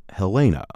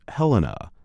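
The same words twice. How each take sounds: First: Helena as "heh-LAY-nuh", stressed in the middle; mispronunciation. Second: Helena as "HEL-uh-nuh", stressed on the first syllable; correct pronunciation. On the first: Narrator showing how not to say the capital's name, mispronunciation. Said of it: "not Helena". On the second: Narrator teaching how Montana's capital is pronounced, correct pronunciation. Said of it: "is pronounced Helena". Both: Shown as a demonstration.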